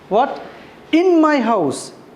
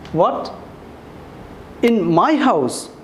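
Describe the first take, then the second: First: The stress falls on the word in. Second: The stress falls on the word my.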